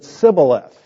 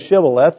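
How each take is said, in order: First: The word begins with an 's' sound. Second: The word begins with an 'sh' sound. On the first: The speaker calls it wrong. "they said Sibboleth" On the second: The speaker calls it right. "They didn't say Shibboleth"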